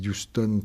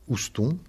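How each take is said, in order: First: The name is said the English way. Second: The name is said the French way.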